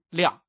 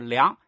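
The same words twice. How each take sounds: First: The syllable is said with a falling tone. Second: The syllable is said with a rising tone. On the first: It is the noun meaning a measure or conclusion. "就要读四声" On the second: It is the verb meaning to measure. "就是读二声"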